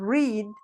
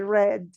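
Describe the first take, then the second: First: The vowel is long, like in 'bead'. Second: The vowel is short, like in 'bed'. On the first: The action happens in the present. "you say that in present" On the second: The action happened in the past. "in past you're going to say read"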